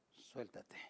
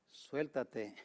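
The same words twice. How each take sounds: First: Much softer, fading repeat; a hushed, fading call to let go; soft echo. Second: Said in the usual way. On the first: Acted. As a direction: let the second one die away to almost nothing.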